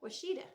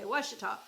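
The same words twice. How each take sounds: First: "Washita" as wuh-SHEE-duh, higher, with a rising end; other states' pronunciation. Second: "Washita" as WASH-uh-taw, first syllable stressed; Oklahoma pronunciation. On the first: Telling viewers how other states say "Washita". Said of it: "they say it". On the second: Oklahoman showing viewers her local "Washita". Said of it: "In Oklahoma, we say Washita". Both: Shown as a demonstration.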